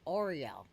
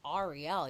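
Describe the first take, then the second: First: The name begins with an 'or' sound. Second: The name begins with an 'air' sound. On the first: The name is spelled with A U. "pronouncing it, it's Oriel" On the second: The name is spelled with A and no U. "not Ariel. You're not pronouncing it in A"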